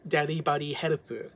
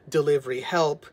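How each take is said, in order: First: It is said with Japanese pronunciation. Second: It is said with English pronunciation. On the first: "in the Japanese pronunciation" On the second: "it's a play on the word delivery help"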